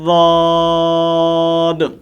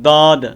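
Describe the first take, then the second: First: It begins with a heavy, emphatic d sound. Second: It begins with a plain light d sound. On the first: The speaker calls it right. "ज़बान की करवट ... जब मसूड़ू के साथ जाकर लगती है तो लफ्ज़ वाद अदा होता है" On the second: The speaker calls it wrong. "दाल के मुशाबे करते हैं, तो वो दाल भी नहीं पढ़नी"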